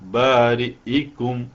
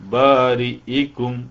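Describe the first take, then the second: First: The glottal stop and its i vowel are clear. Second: The same.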